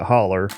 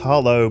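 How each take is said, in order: First: The word is said the West Virginia way. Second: The word is said in the standard way. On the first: "in West Virginia, of course, we pronounce it holler" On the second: "It's it's hollow"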